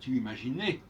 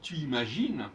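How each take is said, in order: First: The verb ends with a clear 'ay' vowel. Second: The final e of the verb is silent. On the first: The speaker calls it wrong. "on ne va pas dire tu imaginais" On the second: The speaker calls it right. "comme si je dis tu imagines"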